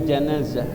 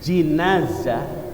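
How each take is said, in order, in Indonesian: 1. Suku kata pertama memiliki vokal 'a'. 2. Suku kata pertama memiliki vokal 'i'. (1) "jamak dari janazah dengan fathah" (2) "Wa amma bil kasri ... Kalau bacanya jinazah"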